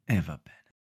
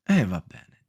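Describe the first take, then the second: First: Much softer, deflated; resigned sigh. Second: Said in the usual way. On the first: Shown as a demonstration. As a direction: let it fade out in resignation.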